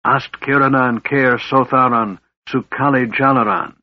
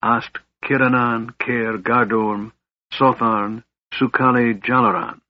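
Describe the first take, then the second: First: A mage's forceful casting chant; intoned arcane incantation; spell incantation. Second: Calm casting of a lightning spell; spell incantation. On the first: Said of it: "Raistlin spoke". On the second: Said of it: "he held forth his right hand and spoke". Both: A narrator's reading.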